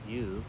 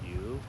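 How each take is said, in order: First: The pitch stays high and level. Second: The pitch rises toward the end. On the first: It means silt. "tone one" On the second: It means fish. "tone three"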